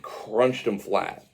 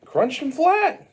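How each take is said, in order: First: Said in the usual way. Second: High, loud, drawn-out exclamation; emphatic repeat shout. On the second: Acted. Storyteller relishing Mario's stomp on Luigi, high emphatic shout. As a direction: hammer it out, slow and high.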